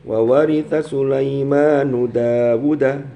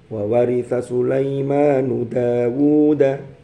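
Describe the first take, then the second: First: The vowels in Dawud are cut short. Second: The vowels in Dawud are held long. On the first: The speaker calls it wrong. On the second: The speaker calls it right. "Dawud ini mesti panjang semua"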